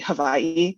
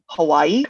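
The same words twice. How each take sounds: First: It is said the native Hawaiian way. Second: It is said the mainland English way. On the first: It is the proper local form. The speaker calls it right. "it's supposed to be Hawaii" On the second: It is said so outsiders understand. The speaker calls it wrong. "I know I'm saying it wrong"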